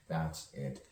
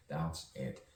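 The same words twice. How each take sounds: The two takes are said the same way.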